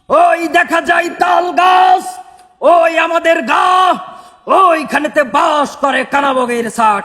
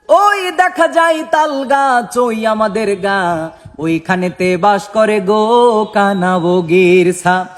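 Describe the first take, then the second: First: It is shouted like a politician's loud rally speech. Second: It is recited in a religious preacher's sermon style.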